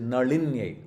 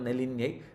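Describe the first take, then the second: First: The la is said as a big la. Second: The la is said as a small la. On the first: The speaker calls it right. "It is, is a big la" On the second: The speaker calls it wrong. "It is not Nalinye"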